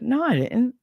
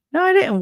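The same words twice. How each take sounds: First: Said in the usual way. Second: Emphatic denial. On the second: Real, not acted. Denying ex's claim, louder.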